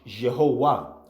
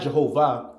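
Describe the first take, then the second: First: The consonant before the last syllable is W. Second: The consonant before the last syllable is V. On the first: The speaker calls it right. "there is no V, it's a W" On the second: The speaker calls it wrong. "It's not Jehovah"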